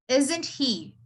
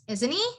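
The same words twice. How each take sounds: First: Each word is said clearly and separately. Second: The two words run together into one.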